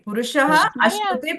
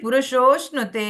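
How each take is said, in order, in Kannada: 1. ಈ ಎರಡು ಪದಗಳನ್ನು ಪ್ರತ್ಯೇಕವಾಗಿ, ಜೋಡಿಸದೆ ಹೇಳಲಾಗುತ್ತದೆ. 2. ಈ ಎರಡು ಪದಗಳು ಒಂದೇ ಪದವಾಗಿ ಸೇರಿಕೊಂಡಿವೆ. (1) "ಬಿಡಿಸಿ ಓದುದಾದ್ರೆ" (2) "ಅಂತ ಆಗ್ತದೆ"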